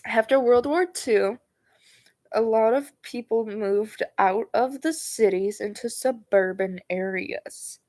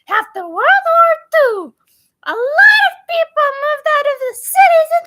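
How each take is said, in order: First: It is read in the speaker's normal voice. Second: It is read in a Mort from Madagascar voice.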